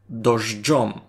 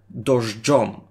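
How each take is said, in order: First: The middle has a 'dzh' sound. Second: The same.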